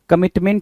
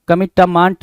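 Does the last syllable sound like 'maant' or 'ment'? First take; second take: ment; maant. First: The last syllable has a short 'e' vowel. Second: The last syllable has a long 'aa' vowel. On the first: The speaker calls it right. "कमिटमेंट होता है" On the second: The speaker calls it wrong. "कमिटमांट नहीं चाहिए"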